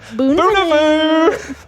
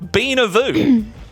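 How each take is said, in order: First: The first syllable sounds like 'boo'. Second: The first syllable sounds like 'bee'. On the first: The speaker calls it wrong. "I thought I said that correctly" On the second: The speaker calls it right. "But it's Beanavoo"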